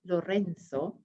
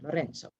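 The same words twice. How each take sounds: First: It is said with a Castilian Spanish accent. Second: It is said with an Italian accent. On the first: "If you're speaking Castilian Spanish, it would be Lorenzo" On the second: "or more Italian"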